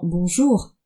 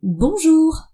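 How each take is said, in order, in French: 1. Il est dit simplement, sur une intonation normale. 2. Il est dit avec enthousiasme, sur une intonation très haute. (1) "Les boulangères ne disent pas simplement « bonjour »" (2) "surjouer l'enthousiasme en finissant ces phrases sur un ton très aigu"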